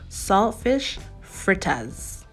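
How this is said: It is said deeply in a Jamaican accent.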